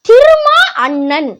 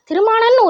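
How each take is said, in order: First: The two words are said separately and clearly. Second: The two words are run together into one. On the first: The speaker calls it right. "தெளிவா உச்சரிக்கணும்" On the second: The speaker calls it wrong. "திருமானன் ஒரு பேர் இல்ல"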